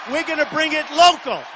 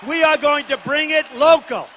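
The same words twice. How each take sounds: First: Said in the usual way. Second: Spelled-out "We are going to" with are hit; emphatic "We are going to bring it local"; stress on are. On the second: Real, not acted. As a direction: insist on are. Restates promise with emphasis.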